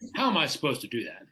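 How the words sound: The question is asked in a rude tone.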